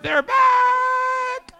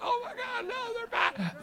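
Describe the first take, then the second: First: Very high, loud, drawn-out comic scream; mock panicked scream. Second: High, squealed mock dread; mock panic. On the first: Restaurant staff at closing time, mock panicked scream. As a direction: scream it in hammed-up horror, stretching the last word. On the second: Restaurant staff seeing the youth group return, mock panic. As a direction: squeal it in exaggerated alarm.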